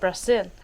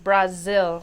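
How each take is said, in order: First: The middle consonant is a hissing s sound. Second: The middle consonant is a buzzing z sound. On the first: This is the Spanish way of saying it. The speaker calls it wrong. "In Spanish, you don't say the Z" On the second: This is the Portuguese way of saying it. The speaker calls it right. "In Portuguese, you do"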